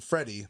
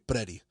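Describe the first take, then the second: First: The word begins with an F sound. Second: The word begins with a P sound. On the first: "instead of saying Freddie" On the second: "they replace it with a P sound"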